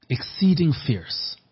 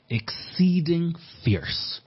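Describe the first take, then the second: First: Exceeding fierce repeated a bit high and slow, stress on Exceeding; emphatic repeat. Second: Exceeding fierce stretched slowly, pitched high, exceeding stressed; drawn-out emphasis. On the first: Preacher repeating the scripture phrase, firm stress on Exceeding. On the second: Preacher reading scripture to congregation, slow high stress on exceeding fierce. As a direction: lean hard into exceeding and drag the words out. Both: Acted.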